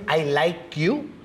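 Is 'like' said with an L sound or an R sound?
L sound. The word like has a plain L sound.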